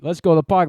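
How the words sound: It is said in an Australian accent. The speaker calls it right. "Do Australian"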